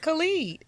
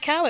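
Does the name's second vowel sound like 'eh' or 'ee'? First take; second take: ee; eh. First: The second vowel sounds like 'ee'. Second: The second vowel sounds like 'eh'. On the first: The speaker calls it right. "It's [name]" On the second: The speaker calls it wrong. "it's not [name]"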